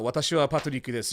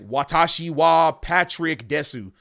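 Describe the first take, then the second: First: It is said with a Japanese accent. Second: It is said with an English accent.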